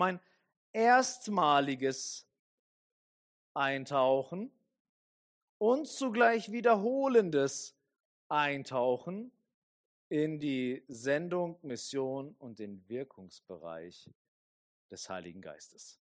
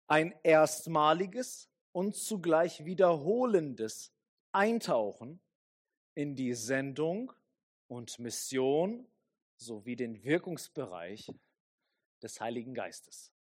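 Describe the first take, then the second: First: It is said very slowly. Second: It is said at normal speed.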